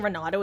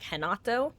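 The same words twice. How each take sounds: First: The name begins with an English R sound. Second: The name begins with an H-like sound. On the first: The speaker calls it wrong. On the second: The speaker calls it right.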